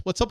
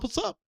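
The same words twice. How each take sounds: First: Said in the usual way. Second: What's up? sung much higher with a rise on up; high rising greeting. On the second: Real, not acted. Greeting repeated, pitched up.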